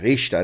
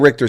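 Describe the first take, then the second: First: The name is said the German way. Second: The name is said the American way. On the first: The speaker calls it right. "Richter would be the correct pronunciation" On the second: The speaker calls it wrong. "in America we say Richter scale"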